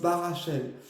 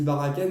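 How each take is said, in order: First: The middle consonant is an sh sound. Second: The middle consonant is a k sound. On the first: "mais on prononce Barachel" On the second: "ça se dit Barakel"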